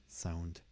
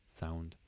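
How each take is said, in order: No difference in how they are said.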